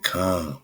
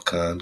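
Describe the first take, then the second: First: The syllable sounds like the word calm. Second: The syllable sounds like the word con. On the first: This is how some locals say it. "they say calm" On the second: This is the usual way of saying it. "instead of saying con"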